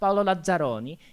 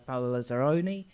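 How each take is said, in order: First: The name is said with an Italian accent. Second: The name is said with an English accent.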